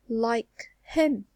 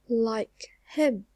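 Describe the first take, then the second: Both takes have the same delivery.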